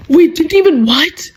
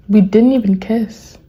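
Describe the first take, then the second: First: High, incredulous echo rising on "what"; shocked disbelief. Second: Said in the usual way. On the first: Acted. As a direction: repeat it in outraged disbelief, pitched up. Shocked reaction to the message.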